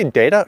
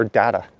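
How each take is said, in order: First: DATA said as DAY-tuh; data, first vowel as in "day"; long-A data. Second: DATA said as DAT-uh, open A; data, first vowel as an open "ah"; short-A data. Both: Shown as a demonstration. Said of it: "I always say it differently".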